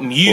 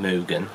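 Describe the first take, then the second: First: The first syllable sounds like 'mew'. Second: The first syllable sounds like 'moo'. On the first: The speaker calls it wrong. "So not Mugen" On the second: The speaker calls it right. "So it's not Mew"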